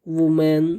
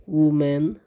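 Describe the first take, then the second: Both takes have the same delivery.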